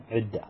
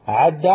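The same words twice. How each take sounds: First: عد said as ʕidda, opening on a clear i; now give the i version of عد: ʕidda; with kasra. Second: عد said as ʕudda, opening on a clear u; with damma. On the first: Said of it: "ويجوز أن تقول". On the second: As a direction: give the u version of عد: ʕudda. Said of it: "يجوز أن تقول". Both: Shown as a demonstration.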